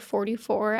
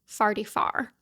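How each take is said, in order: First: It is said with a Kansas City 'or' vowel. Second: It is said with a Saint Louis 'ar' vowel.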